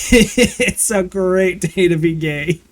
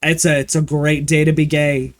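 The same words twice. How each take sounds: First: Higher, slow and savoured through a laugh; laughing, drawn out. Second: Said in the usual way. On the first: Acted. Streamer to chat, slow laughing singsong. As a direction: stretch it out, giggling at the joke. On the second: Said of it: "and I was like".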